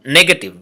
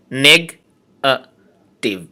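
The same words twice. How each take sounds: First: Said in the usual way. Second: negative slowly split into three syllables with pauses. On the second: Shown as a demonstration. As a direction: say negative in three slow, separate beats. (Negative তিন সিলেবলে থেমে থেমে) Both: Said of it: "trisyllabic words".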